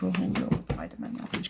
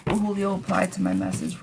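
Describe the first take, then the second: First: Hushed whisper to the cards; quiet whispered question over the cards. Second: Said in the usual way. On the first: Real, not acted.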